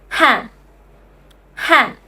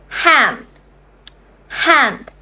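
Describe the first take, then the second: No difference in how they are said.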